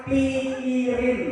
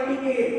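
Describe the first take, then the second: First: "pikirin" drawn out very slowly as the key word; stressed keyword. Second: Said in the usual way. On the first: Shown as a demonstration. Teacher stressing the key word "pikirin" for the class, slow and drawn out. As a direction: stretch out "pikirin" syllable by syllable. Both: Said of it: "harus pakai kalimat".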